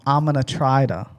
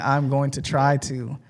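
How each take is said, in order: First: Going to is reduced to gonna. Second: Going to is said in full. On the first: "I said I'm I'm gonna try to" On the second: "instead of saying I'm going to try to"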